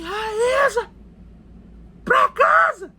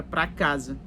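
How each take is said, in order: First: Put-on high, loud bellow calling a child home; shouted summons, pitch way up; imitated father's shout. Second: Said in the usual way. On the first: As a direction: mimic a stern parent yelling an order. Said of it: "ele gritava assim".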